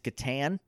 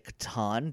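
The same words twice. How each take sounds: First: The word is said in a plain, ordinary way. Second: The word is said in a posh, refined way. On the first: "I probably say it wrong" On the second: "That sounds like someone with a parlor"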